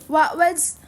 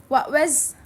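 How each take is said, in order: No difference in how they are said.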